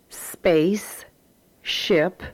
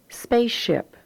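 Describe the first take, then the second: First: The two syllables are said separately with a break. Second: The two syllables flow together without a break. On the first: "very distinctly as two separate syllables" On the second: "the way we pronounce them in everyday reading"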